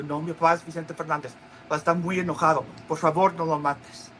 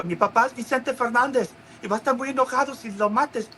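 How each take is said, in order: First: Said in the usual way. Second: Much higher frantic plea; high pleading. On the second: Retold or imitated. Gerardo at the door, high frantic plea. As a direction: plead in panic.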